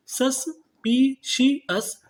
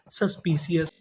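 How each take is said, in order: First: suspicious stretched very slowly, higher, falling at the end; slow syllable by syllable. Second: Said in the usual way. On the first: Shown as a demonstration. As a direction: spell it out slowly for students. (धीरे-धीरे शब्दांश तोड़कर) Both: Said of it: "तो meaning क्या बनी".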